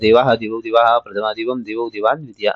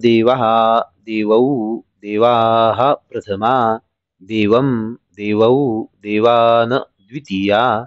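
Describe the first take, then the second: First: The forms are recited quickly and hurriedly. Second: The forms are recited slowly and calmly. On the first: Writing cannot keep up, so mistakes creep in. The speaker calls it wrong. "या वेगामध्ये आपण लिहू शकत नाही" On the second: Each form can be written down accurately at this speed. The speaker calls it right. "इतक्या शांतपणे पाठ करावं"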